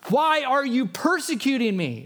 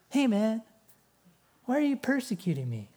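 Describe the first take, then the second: First: It is said in an angry, forceful tone. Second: It is said in a casual, relaxed tone.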